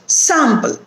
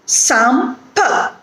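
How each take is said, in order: First: "Sample" joined up, SAM stressed, falling; stress on first syllable. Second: "Sample" split as SAM, pause, PUH; syllable by syllable. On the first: Teacher showing the stressed syllable, "Sample" whole with SAM stressed. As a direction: say "Sample" as one word, leaning on SAM. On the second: Teacher breaking down an example, "Sample" in two separated syllables. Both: Shown as a demonstration. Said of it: "the first syllable is stressed here".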